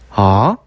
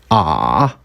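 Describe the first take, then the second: First: The pitch starts mid and rises slowly. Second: The pitch is held at the lowest level. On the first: "천천히 올려서 발음합니다" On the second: "가장 낮은 높이로 발음하는 겁니다"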